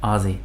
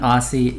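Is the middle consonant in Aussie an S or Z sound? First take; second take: Z; S. First: The middle consonant is a buzzing z sound. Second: The middle consonant is a hissing s sound. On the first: The speaker calls it right. "but it is a Z sound" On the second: The speaker calls it wrong. "it makes me say S instead of Z"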